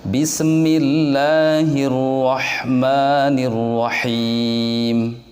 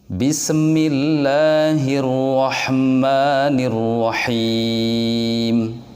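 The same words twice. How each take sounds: Both takes have the same delivery.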